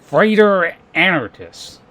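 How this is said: The name is said with an American-style pronunciation. "it's just like an American thing"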